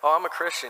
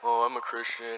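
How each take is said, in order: First: It sounds lively and enthusiastic. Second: It sounds flat and unenthusiastic.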